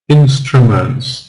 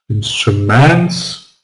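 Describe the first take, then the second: First: The stress falls on the first syllable. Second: The stress falls after the first syllable. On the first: The speaker calls it right. "so it is first in" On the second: The speaker calls it wrong. "Can we say instruments? No"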